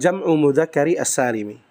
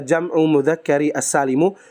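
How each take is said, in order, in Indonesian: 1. Kata salim diakhiri dengan vokal i. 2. Kata salim diakhiri dengan vokal u.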